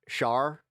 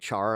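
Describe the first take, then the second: First: The name begins with a soft 'sh' sound. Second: The name begins with a hard 'ch' sound. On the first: This is how the speaker wants the name said. The speaker calls it right. "I always wanted to be called uh Char, but they would never pronounce it with the sh" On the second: This is how other people always said the name. The speaker calls it wrong. "It'd always be Char"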